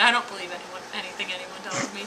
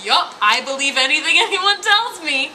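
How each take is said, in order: First: Said in the usual way. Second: Higher, mock-eager agreement; gullible mom. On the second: Mom accepts whatever she's told, mock gullible. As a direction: imitate someone happily swallowing every story. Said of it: "She is just so like".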